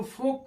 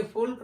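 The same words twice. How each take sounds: First: फोक with vowel straight into K; silent L. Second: फोल्क with L before K; mistaken sounded L. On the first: Teacher shows how folk is read, फोक without L. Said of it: "इसको फोक पढ़ेंगे". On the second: Teacher warns off the misreading, फोल्क with L. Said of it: "फोल्क नहीं पढ़ेंगे". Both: Shown as a demonstration.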